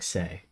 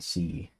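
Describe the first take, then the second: First: The letter sounds like the word 'say'. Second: The letter sounds like the word 'see'. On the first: The speaker calls it right. "the C would be like say, right?" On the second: The speaker calls it wrong. "It wouldn't be like fucking C"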